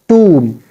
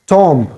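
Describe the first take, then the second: First: The B is silent and the O is long. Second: The final B sound is pronounced. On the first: The speaker calls it right. "We don't have to make the sound of B, it should be silent here. And we have to stretch the sound of O" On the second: The speaker calls it wrong. "We say it's tomb"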